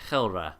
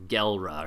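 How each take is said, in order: First: The name begins with a rough throaty sound. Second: The name begins with a hard G sound. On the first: The speaker calls it right. "the way that this is said is apparently Khelra" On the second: The speaker calls it wrong. "before when I was saying Gelra"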